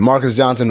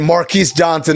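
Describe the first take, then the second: First: The first name sounds like Marcus. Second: The first name sounds like Marquise. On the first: The speaker calls it right. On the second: The speaker calls it wrong.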